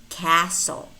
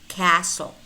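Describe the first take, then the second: No difference in how they are said.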